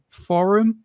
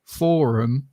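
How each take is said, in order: First: Forum with a short first vowel, lifted as a question; first variant of forum. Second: Forum with a long 'or', 'FOR-um'; second variant of forum. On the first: Asking how to say an online word, first variant of forum. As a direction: say forum as 'FORR-um', higher and questioning. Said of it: "How do you say this word?". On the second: Offering different ways to say a word, second variant of forum. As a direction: say forum as 'FAW-rum', drawn out. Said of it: "three different, like, kind of ways". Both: Shown as a demonstration.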